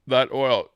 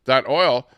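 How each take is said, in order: First: Hiccups breaking the words; hiccuping. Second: Louder after a hiccup; hiccup jolt. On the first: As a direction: talk through hiccups. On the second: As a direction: push through the hiccup. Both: Real, not acted. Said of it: "excuse me for hiccuping here".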